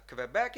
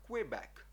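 First: Québec said with a kv, "Квебек"; Czech reading. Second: "Квебек" opened with a rounded kw glide; Ukrainian pronunciation. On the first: Teacher showing how Czechs read a French loanword, Czech pronunciation. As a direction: say "Квебек" starting with a plain K-V. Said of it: "і читають вони, наприклад". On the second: Teacher giving the home-language name of the province, Ukrainian pronunciation. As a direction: say "Квебек" as Kwe-bek, with no hard V. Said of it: "як ми, а в нас провінція канадська". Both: Shown as a demonstration.

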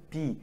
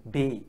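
First: B said "bee", with an ee vowel; English letter B. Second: B said "bay", with an ay vowel; French letter B. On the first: Teacher contrasting English with French, B as English "bee". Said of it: "In English, it is E". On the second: Teacher contrasting French with English, B as French "bay". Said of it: "in French, it is A". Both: Shown as a demonstration.

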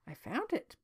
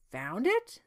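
First: "found" lifted, then dropping away; plain statement, "found" raised; simple answer. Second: "Found it?" rising steeply to the end; incredulous upswing on "it"; surprised echo question. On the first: Jacob answers the king plainly. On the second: King echoes it as a question. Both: A narrator's reading.

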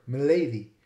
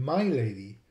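First: Milady with a short first vowel, "mi-LAY-dee". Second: My lady with a long I in "my"; full "my lady". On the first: Lecturer showing the curious word milady, short first vowel. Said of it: "pronounced with a short vowel". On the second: Lecturer giving the word's origin, my lady with long I. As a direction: say my lady as two words, "MY LAY-dee". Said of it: "which comes from my lady". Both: Shown as a demonstration.

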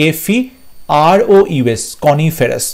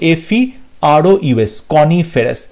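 Both takes have the same delivery.

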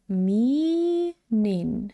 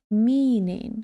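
First: "Meaning" drawn out slowly, syllable by syllable; slow demonstration. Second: Said in the usual way. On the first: Shown as a demonstration. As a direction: stretch "Meaning" out for learners. (повільно, розтягнуто "Meaning") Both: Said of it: "дивимося".

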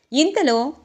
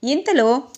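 The two takes are said the same way.

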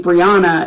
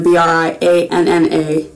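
First: "Brianna" said as bree-AH-nuh; "Brianna" with the middle a as in "father"; pronounced bree-AH-na. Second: "Brianna" said as bree-ANN-uh; "Brianna" with the middle a as in "cat"; pronounced bree-ANN-a. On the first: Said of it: "B R I A N A is supposed to be". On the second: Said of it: "B R I A N N A is supposed to be". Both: Shown as a demonstration.

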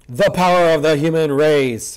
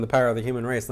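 First: Drawn-out, booming heroic proclamation; grandiose declaration. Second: Said in the usual way. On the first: Acted. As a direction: declare it slowly, like a grand battle cry. Mock heroic line read from manga.

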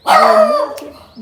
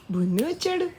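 First: High, loud squeal of the name; excited shout. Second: Said in the usual way. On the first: Real, not acted. Telling the dog Bunni has come, loud excited squeal. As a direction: announce Bunni's arrival with a thrilled cry.

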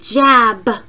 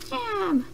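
First: Said in the usual way. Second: High, soft little helper voice; Steve. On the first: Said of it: "I will say a word". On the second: Pretend. Helper repeats after the teacher, high soft echo. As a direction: echo it softly in a raised voice. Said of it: "he will help you guys to repeat".

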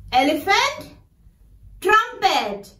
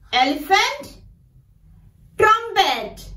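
No difference in how they are said.

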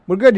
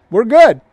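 First: Said in the usual way. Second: Firm little promise, falling at the end; confident reassurance. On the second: Retold or imitated. Preacher voicing trusting Israelites, confidently. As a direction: say it a bit louder, sure and settled.

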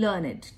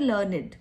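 First: "learned" again as learn-id, softer and lower, trailing off; learned repeated softly. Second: "Learned" said in two syllables as learn-id, ending on a clear id sound. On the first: Teacher repeats learned for students, softer learn-id. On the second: Teacher shows students how to say learned, learn-id. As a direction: say "Learned" like learn-id, rhyming with created. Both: Shown as a demonstration. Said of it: "learned को कैसे pronounce करते हैं".

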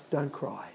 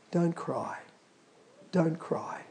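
First: Very soft, lower comfort; gentle comfort. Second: Soft whispered comfort; gentle comfort. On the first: God speaking comfort to the congregation, very softly. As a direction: soothe the listener almost silently. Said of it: "he says to us". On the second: Jesus comforting the grieving widow, softly whispered. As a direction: hush her tears tenderly. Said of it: "he went up to her and he said". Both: Retold or imitated.

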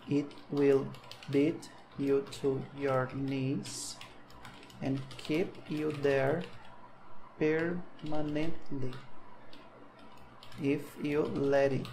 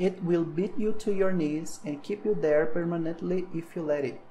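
First: Very slow, word by word with long pauses; slow classroom dictation. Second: With expression. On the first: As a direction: spell the sentence out slowly for students to copy. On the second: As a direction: put some feeling into the quote. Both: Shown as a demonstration. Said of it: "Deixa eu botar uma expressão um pouquinho".

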